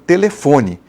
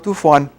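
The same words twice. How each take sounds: First: It is said with a Brazilian Portuguese accent. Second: It is said with a European Portuguese accent. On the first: "Em português você fala" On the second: "Português de Portugal você fala"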